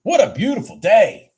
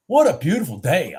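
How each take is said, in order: First: Excited. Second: Said in the usual way. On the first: Real, not acted. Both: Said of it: "I'm up sixteen hundred".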